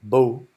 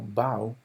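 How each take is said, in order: First: The vowel sounds like the one in go. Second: The vowel sounds like the one in cow. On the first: It names the weapon that shoots arrows. "bow es un arco" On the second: It means bending forward to greet someone. "cuando se pronuncia como bow, es una veña"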